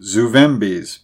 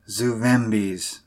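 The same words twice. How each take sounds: First: Firm one-word prompt; pointed, deliberate prompt. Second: Slow, soft, vacant echo; hushed, drawn-out automatic murmur; mechanical repeat. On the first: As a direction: say it clearly to coax out an answer. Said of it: "prompted Buckner". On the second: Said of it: "mechanically repeated the old man". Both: A narrator's reading.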